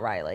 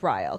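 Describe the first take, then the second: First: The name is said with two syllables. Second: The name is said with one syllable. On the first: The speaker calls it wrong. "No, it's not Riley" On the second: The speaker calls it right. "It's Ryle"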